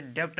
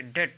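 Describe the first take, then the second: First: डेब्ट said with the b voiced before t; wrong b sounded. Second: डेट said as "det" with no b; silent b. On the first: Teacher warning students against saying डेब्ट. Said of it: "ये डेब्ट नहीं कहेंगे". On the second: Teacher giving students the correct डेट. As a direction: say डेट with the b left out. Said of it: "ये डेट पढ़ा जाएगा". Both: Shown as a demonstration.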